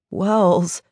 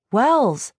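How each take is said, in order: First: Light, teasing call to a friend; calling, slightly amused. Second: Sharp, higher-pitched snap of the name; snapped. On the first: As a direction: call the name with a little laugh in the voice. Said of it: "a little laugh in his voice". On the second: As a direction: cut him off with an irritated snap. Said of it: "I snapped". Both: A narrator's reading.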